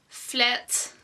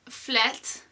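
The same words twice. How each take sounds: Both takes have the same delivery.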